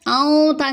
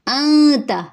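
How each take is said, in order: First: آؤں تا with the nun dropped into a vowel; wrong ikhfa. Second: آنتا with a light nasal nun hidden before the ta; correct ikhfa. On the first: Teacher showing the wrong way to say it. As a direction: say آؤں تا as the mistake to avoid. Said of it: "آؤں تا نہیں". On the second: Teacher correcting the students' pronunciation. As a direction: say آنتا with a thin nasal n, not آؤں تا. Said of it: "آؤں تا نہیں بلکہ آنتا". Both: Shown as a demonstration.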